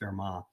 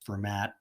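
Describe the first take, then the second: First: The name is pronounced the French way. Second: The name is pronounced the English way. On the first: The speaker calls it right. "almost everybody in math department will say Fermat" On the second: The speaker calls it wrong. "you often hear some people write that say this is Fermat"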